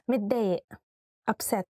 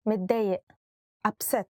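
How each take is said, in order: Both takes have the same delivery.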